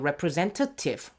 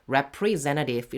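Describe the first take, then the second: First: The t sound is clearly pronounced. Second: The t sound is dropped. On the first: "물론 t를 발음을 하셔도 돼요" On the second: "저는 그냥 죽이는 게 좀 더 편해서"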